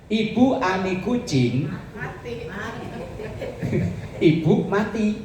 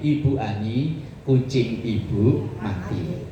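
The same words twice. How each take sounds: First: The pause comes right after the word kucing. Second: The pause comes right after the word Ani. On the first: A cat is told that its mother died. "Coba kalau komanya dipindah" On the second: Mrs. Ani is told that her cat died. "Ibu Ani, koma, kucing ibu mati"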